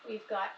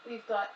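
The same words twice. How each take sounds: The two takes are said the same way.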